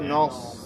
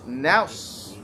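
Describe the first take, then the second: First: The n is heavy, with a rounded o vowel. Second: The n is light and the s heavy. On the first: The speaker calls it wrong. "Not nos" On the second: The speaker calls it right. "the noon has to be light, the sad has to be heavy"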